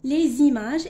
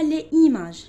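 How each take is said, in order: First: The words are linked with a z sound. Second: The words are said without a linking z sound. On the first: The speaker calls it right. "on dit les images" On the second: The speaker calls it wrong. "et non pas les images"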